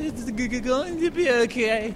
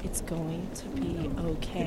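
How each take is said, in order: First: Halting, tearful stammer on going; a child trying not to cry, stumbling through it; mock-tearful stuttering repeat. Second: Slow, soft and soothing; slow soothing reassurance, drawn out; reassuring model line. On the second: Shown as a demonstration. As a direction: say it gently, like calming a child. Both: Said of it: "look into my eyes and say".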